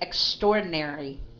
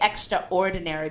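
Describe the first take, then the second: First: The second syllable sounds like 'store'. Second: The second syllable does not sound like 'store'. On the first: The speaker calls it right. "but we said extraordinary" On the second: The speaker calls it wrong. "we don't say extraordinary"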